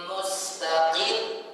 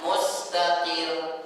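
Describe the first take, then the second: First: The final R is pressed with extra emphasis. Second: The final R is said plainly without emphasis. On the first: The R is doubled. The speaker calls it right. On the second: The R is single. The speaker calls it wrong. "bukan mustaqir. Berarti enggak bertasydid"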